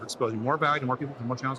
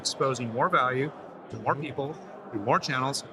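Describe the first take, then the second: First: It is spoken at a faster pace. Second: It is spoken at a normal, slower pace.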